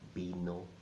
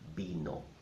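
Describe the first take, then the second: Both takes have the same delivery.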